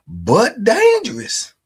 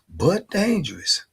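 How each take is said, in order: First: But dangerous, with dangerous drawn out high and loud; loud drawn-out warning. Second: But dangerous, said slowly and a bit higher; slow warning. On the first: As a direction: lean hard on dangerous, half joking. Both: Acted. Repeating a warning about Tony.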